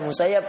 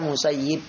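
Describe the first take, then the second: First: The last syllable has the vowel 'a'. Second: The last syllable has the vowel 'i'. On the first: "boleh dibaca Musayyab" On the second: "boleh dibaca Musayyib"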